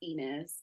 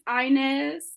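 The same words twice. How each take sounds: First: The name is said with a Spanish accent. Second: The name is said with an English accent.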